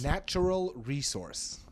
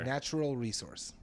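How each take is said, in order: First: It is said in an exaggerated announcer voice. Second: It is said in a plain everyday voice.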